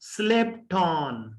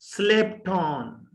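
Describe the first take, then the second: First: Slipped ends with a t sound linked into on. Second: Slipped ends with a t sound linked into on.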